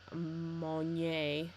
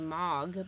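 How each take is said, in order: First: The name is said with a French pronunciation. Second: The name is said with an American pronunciation. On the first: "the French student in me, um, makes me want to say" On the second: "my American in me wants to say Mog"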